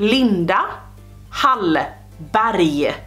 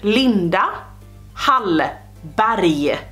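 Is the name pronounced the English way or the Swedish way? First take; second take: Swedish; Swedish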